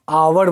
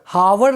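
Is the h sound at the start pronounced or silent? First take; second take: silent; pronounced. First: The word begins with a vowel, no h. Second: The word begins with an audible h sound. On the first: The speaker calls it right. "यहां पर एच silent होता है" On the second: The speaker calls it wrong. "आवर हावर नहीं बोलते हैं"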